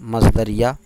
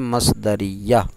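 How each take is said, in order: First: The r is unvowelled and the y is single. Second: The r has an i vowel and y is doubled. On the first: The speaker calls it wrong. "रा को साकिन करके या को मुशद्दद पढ़े बगैर" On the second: The speaker calls it right. "सही लफ्ज़ है"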